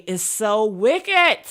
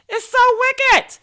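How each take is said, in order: First: Said in the usual way. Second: "It's so wicked." squealed much higher, slow and drawn out; "It's so wicked." in a high, slow, hammed-up squeal. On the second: Shown as a demonstration. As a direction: stretch "It's so wicked." up high in mock outrage.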